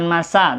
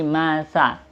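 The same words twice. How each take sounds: First: The consonant is a plain hissing s. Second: The consonant is a th with tongue between teeth. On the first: The speaker calls it wrong. "bukan masa" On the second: The speaker calls it right. "tapi masa ... Lidah kita itu digigit sedikit ya"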